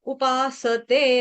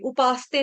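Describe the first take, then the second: First: The 's' is said with its full vowel. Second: The 's' is clipped without its vowel. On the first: The speaker calls it right. "स पूरा बोलेंगे" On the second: The speaker calls it wrong. "नहीं कहेंगे, उपासते कहने से स हलंत हो जाएगा"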